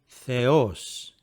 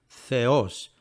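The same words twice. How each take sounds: The two takes are said the same way.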